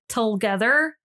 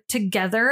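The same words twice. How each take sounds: First: The word is said with an L sound added. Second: The word is said without an L sound. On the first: The speaker calls it wrong. "I like added like an L into it" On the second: The speaker calls it right. "something like the word together"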